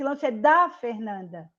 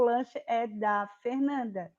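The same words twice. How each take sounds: First: The word 'da' is said with strong force. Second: The word 'da' is said weakly, without force. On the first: The speaker calls it wrong. "Eu não falei que esse lanche é da Fernanda" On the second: The speaker calls it right. "Eu apenas disse"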